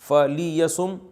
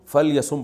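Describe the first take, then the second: First: A short 'i' vowel follows the 'l' sound. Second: No vowel follows the 'l' sound. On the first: "लाम के जो जेर है उसको साइलेंट कर देते हैं" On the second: "फल यसुम पढ़ा जाता है"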